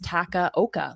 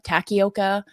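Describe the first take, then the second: First: The middle syllable has an 'ah' vowel. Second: The middle syllable has an 'ee' vowel. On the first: The speaker calls it right. "It's Takaoka. Like it's pretty straightforward" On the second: The speaker calls it wrong. "pronounce like the middle part of his name with an I"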